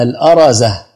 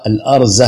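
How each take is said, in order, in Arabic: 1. بعد الراء فتحة قصيرة. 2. لا توجد حركة بعد الراء. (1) "تقال أيضا بفتح الراء" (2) "بفتح الهمزة وسكون الراء"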